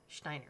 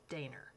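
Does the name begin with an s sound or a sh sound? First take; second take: sh sound; sh sound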